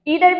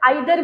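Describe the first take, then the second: First: The first vowel sounds like 'ee'. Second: The first vowel sounds like 'eye'. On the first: "mostly students बोलते हैं और लोग बोलते हैं" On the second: "इसको आइदर भी बोला जाता है"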